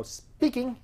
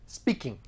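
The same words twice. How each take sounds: First: High "Speaking" as an acted pickup; high-pitched phone answer. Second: Said in the usual way.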